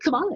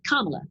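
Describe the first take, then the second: First: The name is said as it was misread. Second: The name is said as it is heard spoken. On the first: The speaker calls it wrong. "I've been pronouncing it wrong in my head" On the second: The speaker calls it right. "or Kamala, sorry"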